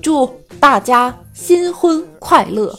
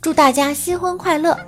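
First: It is said with dramatic rising-falling cadence. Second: It is said in a plain, even way.

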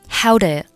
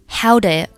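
First: "Do you" is weakened and blended into one syllable. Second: The same.

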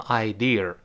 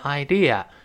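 First: The word ends with an added r sound. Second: The word ends without any r sound. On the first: The speaker calls it wrong. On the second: The speaker calls it right.

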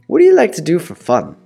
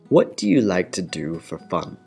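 First: It is said at normal speed. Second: It is said slowly.

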